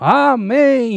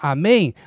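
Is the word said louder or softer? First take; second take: louder; softer. First: The word is said at higher volume. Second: The word is said at normal volume.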